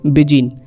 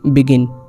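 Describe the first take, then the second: First: The middle consonant is a j sound. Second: The middle consonant is a hard g. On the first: The speaker calls it wrong. "Rules के according इसे पढ़ना चाहिए बिजिन" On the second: The speaker calls it right. "इसलिए इसे हम पढ़ेंगे"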